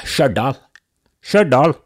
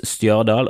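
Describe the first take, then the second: First: Stjørdal said as "Shødal", the second time higher and louder; Stjørdal the dialect way, sh start, no t, no r; mock the locals by saying Stjørdal as "Shødal"; local pronunciation. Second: Stjørdal said as written, "Stjør-dal", every letter heard; Stjørdal with a clear st, j and r; spelled-out pronunciation. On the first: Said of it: "så uttaler de alt bare på sin egen måte". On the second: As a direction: read Stjørdal just as it is spelled, slowly. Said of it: "det skrives Stjørdal". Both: Shown as a demonstration.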